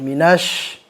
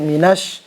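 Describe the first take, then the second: First: The sh sound is spread with more breath. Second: The sh sound is narrow, without spread air. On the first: The speaker calls it right. "harus disebarkan" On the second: The speaker calls it wrong. "minash itu kan gak nyebar"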